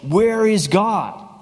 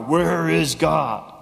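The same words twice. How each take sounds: First: It is said in a stern voice. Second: It is said in an even harsher voice.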